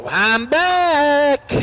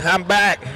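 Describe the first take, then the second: First: I'm back called out much higher; high excited. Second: Said in the usual way. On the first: Real, not acted. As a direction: belt it out high and happy. Commentator returns to the mic.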